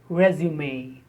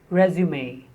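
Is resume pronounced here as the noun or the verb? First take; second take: noun; noun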